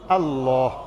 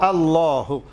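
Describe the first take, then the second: First: The final h is pronounced with no vowel. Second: The final h is followed by a short u vowel. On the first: "जज़म देंगे और पढ़ेंगे" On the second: "हा को हम पेश देकर पढ़ेंगे"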